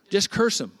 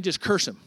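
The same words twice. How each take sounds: First: Louder, higher, insistent repeat; pushier demand. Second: Said in the usual way. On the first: Acted. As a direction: push it harder the second time. King repeats the demand harder.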